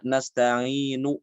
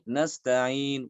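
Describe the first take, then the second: First: Nasta'inu read slowly with the final u fully sounded; wrong full vowel. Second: Nasta'in with the final u clipped to a trace, slowly; shortened vowel. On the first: Teacher showing the wrong reading slowly. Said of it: "Tidak dibaca". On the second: Teacher showing the right raum reading. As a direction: clip the end of nasta'in short. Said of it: "tapi nasta'in". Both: Shown as a demonstration.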